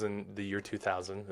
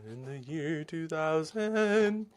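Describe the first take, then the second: First: Said in the usual way. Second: Slow, drawn-out, higher talk-show bit voice; Conan O'Brien impression. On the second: Host drags out the catchphrase for his viewers in a slow mock announcer voice. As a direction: stretch it out like a late-night comedy callback. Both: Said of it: "Is that Conan O'Brien throwback?".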